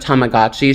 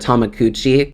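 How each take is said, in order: First: The word is said with a g sound. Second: The word is said with a k sound. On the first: The speaker calls it right. "instead of Tamagotchi" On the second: The speaker calls it wrong. "she would call it a Tamakuchi"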